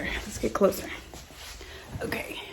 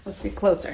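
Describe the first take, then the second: First: Breathy whisper up close. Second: Said in the usual way. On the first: Shown as a demonstration. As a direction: whisper it, leaning in. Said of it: "same words whispered". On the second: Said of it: "whispered repeat contrasts".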